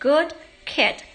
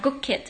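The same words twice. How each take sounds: First: The word good ends with a d sound. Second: The word good ends with a g sound.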